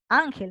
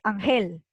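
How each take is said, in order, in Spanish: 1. El acento está en la primera sílaba. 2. El acento está en la última sílaba.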